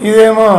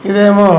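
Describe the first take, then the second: No difference in how they are said.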